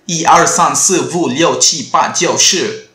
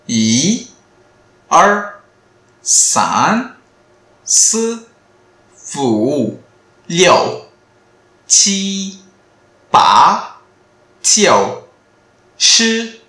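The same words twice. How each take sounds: First: The numbers are said fast. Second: The numbers are said slowly.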